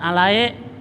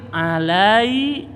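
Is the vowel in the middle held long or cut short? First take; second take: short; long. First: The middle vowel is cut short. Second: The middle vowel is drawn out long. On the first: The speaker calls it wrong. "jangan alai" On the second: The speaker calls it right.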